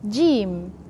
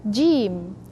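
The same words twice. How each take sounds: First: The first consonant is pressed moderately. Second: The first consonant is pressed moderately.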